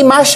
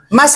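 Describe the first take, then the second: First: The word ends with an sh sound. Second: The word ends with an s sound. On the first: The speaker calls it wrong. "Hindi mash, ha?" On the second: The speaker calls it right.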